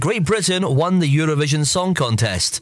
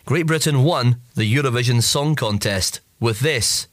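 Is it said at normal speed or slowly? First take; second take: normal speed; slowly. First: It is said at normal speed. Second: It is said slowly.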